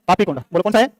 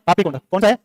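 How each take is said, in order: Both takes have the same delivery.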